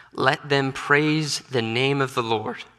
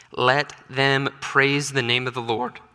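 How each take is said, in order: The two takes are said the same way.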